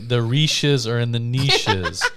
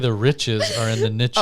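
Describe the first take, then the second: First: Niches is said with an ee vowel. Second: Niches is said with a short i vowel. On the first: The speaker calls it wrong. "You can't say" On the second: The speaker calls it right. "You have to say"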